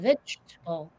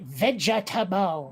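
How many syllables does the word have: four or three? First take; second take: three; four. First: The word is said with three syllables. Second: The word is said with four syllables. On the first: The speaker calls it right. "as opposed to vegetable" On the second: The speaker calls it wrong. "You did it vegetable"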